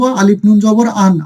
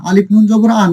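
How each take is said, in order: First: Slow model take of আলিফ নুন জবর আন; teacher spells আলিফ নুন জবর আন slowly; slow spelling. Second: Said in the usual way. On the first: Shown as a demonstration. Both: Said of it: "তাহলে আমরা কিভাবে বানান করব?".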